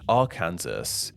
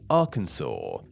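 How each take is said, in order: First: It is said to rhyme with Kansas. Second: It is said not rhyming with Kansas. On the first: This is the English-style pronunciation one senator wanted. "pronounce it in a more English way, so it would sound somewhat similar to the nearby state of Kansas" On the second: This is the French-style pronunciation made official by law. "pronounced in the way it is today"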